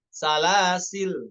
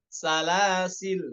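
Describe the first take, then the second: First: The word ends on the consonant l. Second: The word ends on the consonant l.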